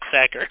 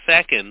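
First: The name ends with an r sound. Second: The name ends with an n sound. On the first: The speaker calls it wrong. "not Sacker" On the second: The speaker calls it right. "It's Sacken"

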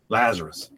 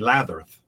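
First: The s sounds are spoken as clear s sounds. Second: The s sounds are spoken as th sounds. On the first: The speaker can now say it after recovering. The speaker calls it right. "I can say it right finally" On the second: The speaker could not say it after a brain injury. The speaker calls it wrong. "I could only say Latherth"

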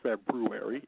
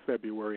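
First: It is said carefully, first r pronounced. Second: It is said in a Chicago accent, first r dropped.

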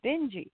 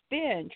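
First: The name ends with a sounded final vowel. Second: The name ends without a final vowel. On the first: The speaker calls it wrong. "the teacher would always say Benji" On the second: The speaker calls it right. "no, it's Benj"

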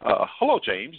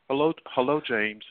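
First: The voice is lively and full of energy. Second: The voice is flat and low in energy. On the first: The speaker comes across as confident. The speaker calls it right. "The former projected energy" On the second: The speaker comes across as lacking confidence. The speaker calls it wrong. "the latter lacked energy"

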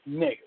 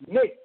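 First: It sounds stern and disapproving. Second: It sounds excited and celebratory. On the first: The speaker disapproves. "It is a sign of disapproval, said sternly with squinting eyes" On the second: The speaker celebrates the other's good news. "It is meant to emphasize or celebrate"

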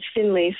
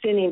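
First: The name is said with an L sound. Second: The name is said without an L sound. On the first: The speaker calls it right. "but it's Finley" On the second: The speaker calls it wrong. "I always thought it was Finney"

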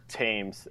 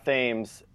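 First: It is pronounced like the river's name. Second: It is not pronounced like the river's name. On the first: This is how the river's name is said. "as the river" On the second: This is how the player says his own name. "I think he goes by Thames"

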